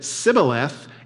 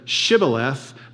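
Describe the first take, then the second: First: The word begins with a plain s sound. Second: The word begins with an sh sound. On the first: The speaker is not from the tribe being asked. The speaker calls it wrong. "They could only pronounce the s" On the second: The speaker belongs to the tribe doing the asking. The speaker calls it right. "the Ephraimites couldn't pronounce the sh"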